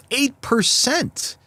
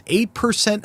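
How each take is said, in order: First: Eight percent, slow, higher and stretched out; stressed disbelief. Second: Said in the usual way. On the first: Real, not acted. Host stunned by the mayor's approval rating, stretches Eight percent slowly.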